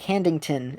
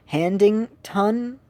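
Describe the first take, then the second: First: Said in the usual way. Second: "Handington" slowly, with a full rising "tun" ending; common mispronunciation. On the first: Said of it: "And then I'd be like". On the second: Retold or imitated. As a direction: imitate people sounding out "Handington" as "Handing-tun". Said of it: "the way that they pronounce it".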